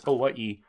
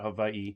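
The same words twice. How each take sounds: First: The middle consonant is a W sound. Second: The middle consonant is a V sound. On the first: The speaker calls it right. "it was Hawaii with a W" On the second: The speaker calls it wrong. "not a V, not Hawaii"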